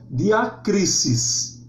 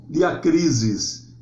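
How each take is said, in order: First: The ending has a hissing S sound. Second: The ending has a buzzing Z sound. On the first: The speaker calls it right. "diacrisis e não" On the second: The speaker calls it wrong. "Nunca o S grego tem um som de Z como em português"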